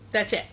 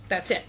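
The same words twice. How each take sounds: The two takes are said the same way.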